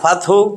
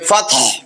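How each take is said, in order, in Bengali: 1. শেষে একটি অতিরিক্ত 'উ' স্বর যোগ করা হয়। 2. এটি একটি নীরব শেষ 'হ' ধ্বনিতে শেষ হয়। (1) "ফাতহু বলেন কিন্তু এটা অশুদ্ধ" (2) "সাকিন দিয়া থামবেন।"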